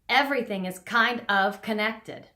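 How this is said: The first vowel starts abruptly, with a glottal catch. The speaker calls it wrong. "the improper way to say that is"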